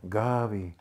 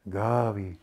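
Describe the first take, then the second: First: The name is said softly and warmly. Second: The name is said softly and warmly.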